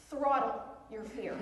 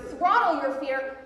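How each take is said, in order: First: Said in the usual way. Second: Throttle punched louder, slow and forceful; louder repeat. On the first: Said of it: "Don't coddle your fear. Throttle your fear". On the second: Shown as a demonstration. Speaker repeats the slogan to the crowd, louder punch. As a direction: hammer the slogan home.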